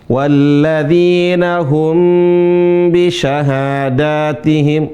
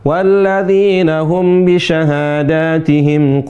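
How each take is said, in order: First: The m before b is held for two beats. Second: The m before b is short, not held. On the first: The speaker calls it right. "mim mati bertemu dengan ba ditahan" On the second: The speaker calls it wrong. "bukan ... ini salah"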